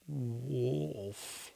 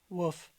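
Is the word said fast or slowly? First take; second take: slowly; fast. First: The word is said slowly and carefully. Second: The word is said quickly and sharply. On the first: "Pronounce it slowly" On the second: "in an intense moment, real fast"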